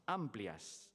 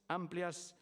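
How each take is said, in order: First: Amplias read low and flat; first reading of the name. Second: Amplias said again higher and louder; name repeated with emphasis. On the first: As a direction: say Amplias low, falling, matter of fact. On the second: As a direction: lift Amplias up high and loud to stress it. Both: Shown as a demonstration.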